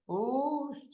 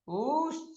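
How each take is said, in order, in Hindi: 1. u स्वर बहुत लंबा खींचा जाता है। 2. u स्वर लगभग दोगुना समय तक उच्चारित होता है। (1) "और उससे भी बड़ा तो प्लुत उकार है" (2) "दूसरा उससे बड़ा दीर्घ उकार है"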